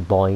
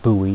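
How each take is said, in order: First: It is said in a non-American way. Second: It is said the American way.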